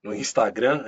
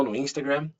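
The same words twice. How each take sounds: First: "Instagram" in a Brazilian Portuguese accent. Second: "Instagram" with an English accent. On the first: Guest toying with network names, Brazilian accent. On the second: Guest toying with network names, English accent. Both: Real, not acted. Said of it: "a gente começa a pegar sotaques".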